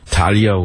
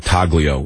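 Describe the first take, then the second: First: The G is silent in the middle. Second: The G is pronounced in the middle. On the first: The speaker calls it right. "you're not supposed to pronounce the G" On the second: The speaker calls it wrong. "I'm not from Italiano, so I say Taglio, because it's easier to tell to the clerk"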